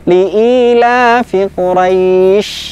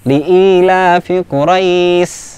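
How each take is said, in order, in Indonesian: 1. Bunyi 'sh' di akhir itu penuh dan kuat. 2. Bunyi 'sh' di akhir itu ringan dan lemah. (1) "tengah lidah kita kita angkat ke langit-langit" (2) "masih terlalu ringan"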